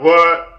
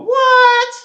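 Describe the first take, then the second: First: The vowel sounds cramped without open space. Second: The vowel has an open, lifted space. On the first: The speaker calls it wrong. "I'm not creating the right space and and it sounds off" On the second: The speaker calls it right. "palate in such a way so I can go"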